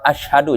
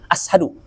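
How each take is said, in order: First: The middle consonant is an sh sound. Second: The middle consonant is a plain s sound. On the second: "jadi ashadu"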